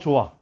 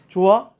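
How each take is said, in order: First: It is said with statement intonation. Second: It is said with question intonation. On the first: The speaker states that they like it. "좋다라는 어떤 내 감정을 서술할 때" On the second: The speaker asks whether someone likes it. "질문의 형태도 어때요?"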